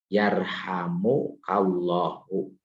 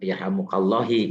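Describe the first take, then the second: First: The final syllable ends in an 'u' vowel. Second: The final syllable ends in an 'i' vowel. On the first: The speaker calls it right. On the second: The speaker calls it wrong.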